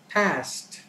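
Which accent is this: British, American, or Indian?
American. The word is said in an American accent. "an American would pronounce it as past"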